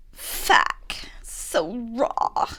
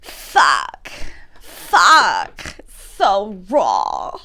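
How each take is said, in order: First: Softer whispered try at Ambi's "Fuck. So raw."; breathy, whispered attempt at someone else's line. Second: Louder full-voiced take on a copied line; attempted Ambi voice. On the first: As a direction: whisper it as a failed Ambi impression. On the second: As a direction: bark it out trying to copy Ambi. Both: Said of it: "I can't do Ambi's voice".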